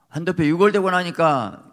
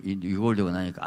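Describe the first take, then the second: First: 유골되고 punched loud and high with a falling end; emphatic. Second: Said in the usual way. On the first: Acted. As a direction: lean hard on 유골되고 and let it drop. Preacher retells Jacob's broken hip. (유골되고를 크고 높게 힘주어 떨어뜨리며)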